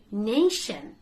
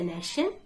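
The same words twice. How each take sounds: First: "nation" with long AY, NAY-shun; correct pronunciation. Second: "nation" with a short A, NASH-un; short first vowel in "nation"; mispronunciation. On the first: Teacher corrects learners, "nation" with long AY. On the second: Teacher shows what not to say, "nation" as NASH-un. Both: Shown as a demonstration. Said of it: "don't say nation".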